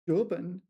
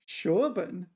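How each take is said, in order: First: The word begins with a 'j'-like sound. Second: The word begins with a 'sh' sound. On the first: The speaker calls it wrong. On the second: The speaker calls it right.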